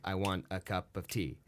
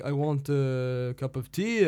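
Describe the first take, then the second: First: Quiet English accent in iambic beat; English lilt. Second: Slow French accent rising on tea. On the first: Actor showing English rhythm, soft and metered. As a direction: tap it out da-da-da like English verse. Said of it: "the English speak on". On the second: Actor demonstrating French speech rhythm, slow and rising. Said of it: "And the French". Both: Shown as a demonstration.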